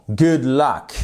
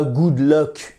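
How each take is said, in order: First: "luck" with a short open "a" sound, like "lak"; "Good luck" said the English way, "lak"; correct pronunciation. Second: "luck" said like French "lok"; "good luck" with a French "o" in "luck"; wrong pronunciation. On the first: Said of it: "Et pas good luck". ("luck" prononcé "lak", à l'anglaise) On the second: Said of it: "Et pas good luck. Non". ("luck" prononcé "lok", à la française) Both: Shown as a demonstration.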